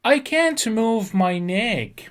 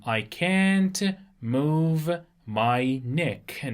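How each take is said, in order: First: Slow and raised, each word set apart; slow model reading. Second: Very slow, at the usual pitch, stretching every word; very slow repeat. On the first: Teacher reading a patient's sentence slowly to students, higher and slow. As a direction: read it out slowly for the class to copy. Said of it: "میگه که نمیتونم گردنم رو تکون بدم". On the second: Teacher repeating the sentence very slowly before explaining neck. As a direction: repeat it even slower so they catch each word. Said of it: "neck به معنای". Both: Shown as a demonstration.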